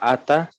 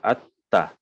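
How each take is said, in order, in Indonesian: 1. Bunyi t pendek dan tunggal. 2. Bunyi t ditahan panjang dan dirangkap. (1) "satu taknya itu hilang" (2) "taknya ada dua"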